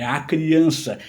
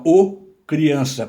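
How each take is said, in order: First: "a criança" with the A marked; stress on the article. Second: "o criança" with a loud, held O; wrong article "o" singled out in "o criança"; stress on the article. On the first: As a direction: lean on "a" before "criança". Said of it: "Não, é". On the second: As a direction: punch the "o" before "criança". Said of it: "eu não digo". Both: Shown as a demonstration.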